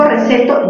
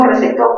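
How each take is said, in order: First: Receto stressed on the middle syllable, re-CE-to. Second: Recetó stressed on the final syllable, rece-TÓ. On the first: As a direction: hit the CE of receto. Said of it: "si digo receto". (receto con fuerza en CE) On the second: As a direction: hit the TÓ of recetó. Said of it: "si digo recetó". (recetó con fuerza en TÓ) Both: Shown as a demonstration.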